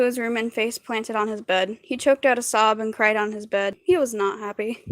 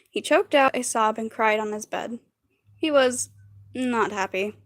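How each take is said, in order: First: Hurried, run-on story reading; reading too fast. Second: Slower retake with pauses; deliberately slower reading. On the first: Real, not acted. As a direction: read it straight through without pausing. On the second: Shown as a demonstration. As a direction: pause before "not happy", read it measured. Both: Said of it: "why am I reading so fast".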